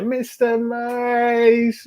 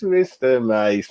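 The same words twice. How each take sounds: First: Drawn-out call. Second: Said in the usual way. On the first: Real, not acted. Calling out a chat regular.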